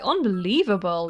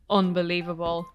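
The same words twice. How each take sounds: First: It sounds amazed and agreeing. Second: It sounds doubtful and skeptical. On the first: The speaker agrees that the story is shocking. "I was agreeing with Nan. I was like" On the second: The speaker thinks the other person is lying. "as in you're probably lying"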